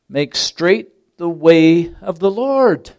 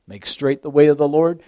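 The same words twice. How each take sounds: First: Way stretched out slowly and louder; stress on way. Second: Said in the usual way. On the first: Shown as a demonstration. Preacher quoting John, slow and stressed on way. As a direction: lean hard on the word way. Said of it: "Notice that emphasis on the word way".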